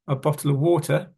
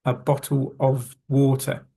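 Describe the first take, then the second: First: "of" reduced to a bare "uh"; quick, linked "bottle of water" like "bottle-a water"; dropped consonant. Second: "of" said fully with its v sound; careful full form. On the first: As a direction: drop the v from "of". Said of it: "should not have heard there the letter F". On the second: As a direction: spell out "of" clearly between "bottle" and "water". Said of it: "If we were to say it quickly". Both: Shown as a demonstration.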